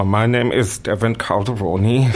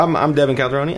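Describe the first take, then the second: First: Slowed right down, each syllable placed; deliberate, spelled-out pace; slow careful name. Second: Fast. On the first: Shown as a demonstration. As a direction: say your name slowly for listeners. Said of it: "pronounce it beautifully slowly". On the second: Real, not acted. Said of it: "that went very fast".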